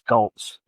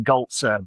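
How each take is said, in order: First: The name ends in a consonant, no extra vowel. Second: The name ends with an extra vowel syllable. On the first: This is how the speaker's family says it. "but yeah, it's it, it's Goltz" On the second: This is how it is said in Germany. "pronounce the e on everything on, on the end"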